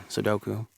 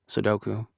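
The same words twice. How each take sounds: The two takes are said the same way.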